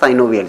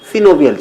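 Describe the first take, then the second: First: The first syllable has a long 'ai' sound. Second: The first syllable has a short 'i' sound. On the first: "अगर आप साइनोवियल पढ़ लेते हैं तो इसमें आपको कोई प्रॉब्लम नहीं" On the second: "जो करेक्ट प्रोनाउंसिएशन है दोस्तों वो सिनोवियल ही है"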